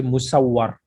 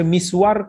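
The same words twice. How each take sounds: First: Musawwar read mu-saw-war, doubled w. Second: Miswar read short, mis-war, no vowel marks. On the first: Teacher showing students the other reading, musawwar, as a careful demo. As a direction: stretch musawwar into three syllables with a doubled w. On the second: Teacher showing students the first reading, miswar, as a careful demo. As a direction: say miswar as two quick syllables. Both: Shown as a demonstration. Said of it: "Berbeza maksud dia".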